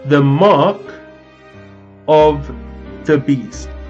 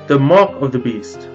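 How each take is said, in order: First: It is said very slowly. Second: It is said a little slowly.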